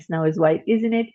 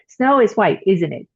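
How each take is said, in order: First: "isn't it?" lifted as a question; unsure, raise the voice on "isn't it?"; rising tag. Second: "isn't it?" falling to confirm; falling tag. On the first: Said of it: "it will rise in a certain pattern". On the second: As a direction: drop the voice on "isn't it?", already sure. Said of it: "My voice goes down". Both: Shown as a demonstration.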